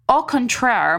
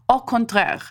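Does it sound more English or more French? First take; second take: English; French. First: It has an anglicized, un-French pronunciation. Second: It has a more French-sounding pronunciation. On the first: The speaker calls it wrong. "I know I botched up the pronunciation of that" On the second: The speaker calls it right. "was that better? Probably"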